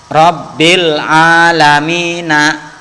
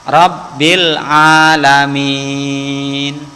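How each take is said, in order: First: The phrase ends with a short final vowel. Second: The phrase ends on a consonant, vowel dropped. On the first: The reading continues without stopping. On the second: The reading stops here.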